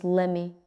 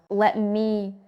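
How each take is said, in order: First: "lemme" with the t swallowed; casual "lemme"; reduced form. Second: "Let me" with the t sounded; two separate words, "Let me"; careful, unreduced "Let me"; full form. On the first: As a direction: blend let me into "lemme". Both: Shown as a demonstration. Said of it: "Let me becomes lemme".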